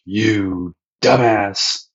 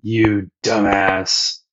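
First: Slow, dragged-out insult; capital D dumbass. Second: Drawn-out insult. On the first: Sanji calling Luffy a dumbass, slow and dragged out. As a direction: stretch every syllable with contempt. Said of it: "With a capital D, dumbass". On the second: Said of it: "Krieg's, like, pretty upset". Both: Retold or imitated.

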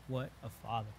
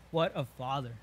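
First: What a Father breathed out much softer and lower, fading to near silence; hushed awe. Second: Said in the usual way. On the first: Retold or imitated. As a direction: let "What a Father" die away in quiet wonder. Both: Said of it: "you want to cry out".

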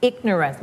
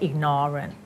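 First: IGNORANCE with the beat on IG; IG-nuh-rance, first syllable strong; stress on first syllable. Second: IGNORANT said wrongly as ig-NOR-ant; full NOR in the middle of IGNORANT; misplaced stress. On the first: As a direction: hit IG, reduce the rest of IGNORANCE. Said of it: "stress ที่ ig". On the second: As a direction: beat moved onto the second syllable of IGNORANT. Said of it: "ไม่ใช่ ignorant". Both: Shown as a demonstration.

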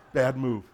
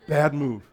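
No difference in how they are said.

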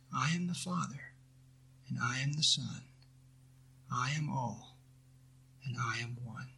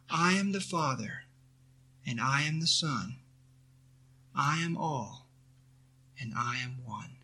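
First: Softer, hushed reverent recitation fading away; fading prayerful repeat. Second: A soft, reverent recited prayer, lightly voiced; quiet affirmation. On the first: Acted. Teacher repeating the mantra to students, hushed and fading. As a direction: let it sink to a near hush. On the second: Teacher reciting a mantra to students, softly and reverently.

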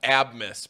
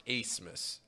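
First: Abmas with the B sounded, AB-mas; name said as spelled. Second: Acemas said ACE-mas, no B; name as pronounced. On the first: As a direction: say Abmas just as it is written, AB-mas. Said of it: "it's spelled Abmas". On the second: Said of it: "but it's pronounced Acemas". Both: Shown as a demonstration.

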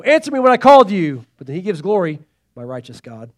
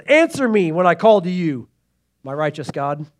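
First: Urgent cry then reverent hush. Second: Said in the usual way. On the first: Retold or imitated. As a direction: demand loudly, then drop to hushed glory. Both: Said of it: "Like how he gets all".

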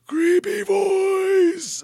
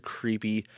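First: Very high, drawn-out creepy monster voice; creepy creature voice. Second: Said in the usual way. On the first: Acted. Podcaster badly imitating a cartoon boogeyman from childhood, creepy creature voice. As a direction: stretch it out in a loud, hammed-up creepy pitch far above normal. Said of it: "that was my bad attempt at doing it".

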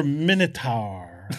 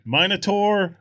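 First: "Minotaur" as MIN-uh-tar, slowly; short i in "Minotaur", like "minute"; second pronunciation. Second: "Minotaur" as MINE-uh-tor, spelt out slowly; long i in "Minotaur", rhyming with "mine"; first pronunciation. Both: Shown as a demonstration. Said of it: "So is it pronounced".

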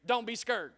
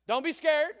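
First: "scared" said slangily as "skurred"; slangy version. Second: Said in the usual way. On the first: Acted. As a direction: bend the vowel of "scared" to rhyme with "bird". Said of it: "that's Dustin's version". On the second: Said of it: "that's Dustin's version, right?".

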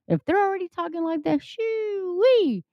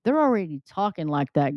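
First: Excited rise. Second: Said in the usual way. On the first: Real, not acted. Repeats phrase, rising to exclamation.

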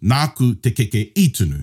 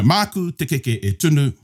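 First: "nāku" and "i" stressed, ending in a fall; past form, i stressed. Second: "māku" leaned on and a little higher, with a long held "keke"; future form, māku stressed. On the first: Teacher contrasts "nāku" and "i" as the past form, stressing them. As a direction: land on "i" to mark the past, "nāku" firm. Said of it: "I baked the cake". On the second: Teacher sets out "māku" as the future form, stressing it. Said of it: "So I will bake the cake". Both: Shown as a demonstration.

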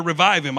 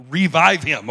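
First: Said in the usual way. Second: REVIVE hit hard and loud on its first syllable; "revive" said with loud, intense stress; intense emphasis. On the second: Shown as a demonstration. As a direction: punch "revive" forcefully, leaning on the RE. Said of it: "it's pretty intense in the Greek".

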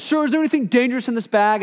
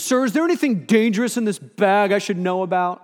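First: Higher, fast stern guard question; officer questioning. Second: A hint of a stern guard, higher; officer questioning. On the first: Retold or imitated. Guard repeats his question to the speaker, quick and stern. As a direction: push the question again like a guard. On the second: Guard asks the speaker about danger, lightly stern. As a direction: press him like a suspicious guard.

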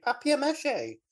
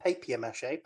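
First: Papier mâché said high with a French a, PAH-pee-ay mah-shay; mock-posh Papier mâché, pitched way up; French-style papier mâché. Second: Said in the usual way. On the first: Shown as a demonstration.

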